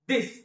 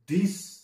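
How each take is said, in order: First: It begins with a plain, unaspirated 'd' sound. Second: It begins with a breathy, aspirated 'dh' sound. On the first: The speaker calls it right. "परंतु तो actually दिस असा आहे" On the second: The speaker calls it wrong. "बऱ्याच वेळी आपण याचा उच्चार थोडासा वेगळा करतो, दिस ध घेतला जातो"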